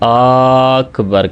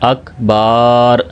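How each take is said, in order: First: The first vowel is drawn out long. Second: The second vowel is drawn out long. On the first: "यानी हमज़ा को लंबा कर देते हैं" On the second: "बा को लंबा करके पढ़ देते हैं"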